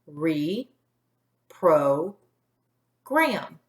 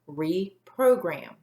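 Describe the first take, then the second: First: The syllables are separated by pauses. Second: The syllables are blended without pauses. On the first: "broke it up into three syllables" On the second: "put those parts together"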